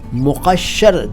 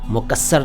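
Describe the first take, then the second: First: The middle consonant is a doubled 'sh' sound. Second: The middle consonant is a doubled 's' sound. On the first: The speaker calls it right. "देखिए उच्चारण देखिए, अरबी से आया हुआ शब्द है मुक़श्शर" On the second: The speaker calls it wrong. "मुकस्सर नहीं"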